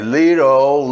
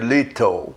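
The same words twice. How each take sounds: First: The t is a soft flap, like d. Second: The t is a clear, crisp t sound. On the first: It sounds like most Americans. "transforma num som meio R" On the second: It sounds British or formal American. "costumam falar esse T com som de T"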